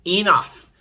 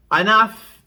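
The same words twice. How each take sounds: First: Firm loud Enough, falling; stern loud order; loud command. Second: Sharp loud Enough, pitched up; loud stern mother's command; one loud command. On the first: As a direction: end the fight with one word. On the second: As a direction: shut the quarrel down with one word. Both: Retold or imitated. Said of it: "I said one loud".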